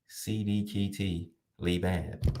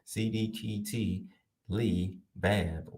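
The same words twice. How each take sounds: First: The name is said quickly, syllables run together. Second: The name is said slowly, syllable by syllable. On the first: "let me say it fast" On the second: "I'm going to try to say it slow like that"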